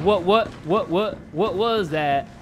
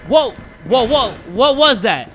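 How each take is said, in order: First: Slow, mocking replay of a startled stutter; imitating own startled stammer. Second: Loud, rapid startled stammer; startled, odd delivery. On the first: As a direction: mimic your own spooked stammer, dragged out. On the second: Real, not acted. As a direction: blurt it in bursts, louder and spooked. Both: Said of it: "Why did I say it like that?".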